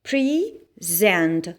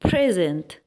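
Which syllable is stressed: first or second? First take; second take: second; first. First: The stress is on the second syllable. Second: The stress is on the first syllable. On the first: It is a verb meaning to give or offer. "هنحط stress هتبقى على الساوند اللي هو z" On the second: It is a noun or adjective meaning gift or present time. "لو حطينا الاسترس هنا يعني ضغطنا على الكلمة"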